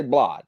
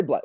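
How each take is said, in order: First: "blod" with an ah vowel for blood; "blod", open ah in the middle; their own pronunciation. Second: Said in the usual way. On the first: Shown as a demonstration. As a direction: say "blod" to rhyme with nod. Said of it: "We say". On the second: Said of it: "We don't say blood".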